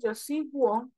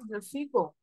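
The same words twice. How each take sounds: First: A 'w' sound follows the g. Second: No 'w' sound follows the g. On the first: The speaker calls it wrong. "yo no puedo decir yo sigo porque es incorrecto" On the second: The speaker calls it right. "Yo digo yo sigo"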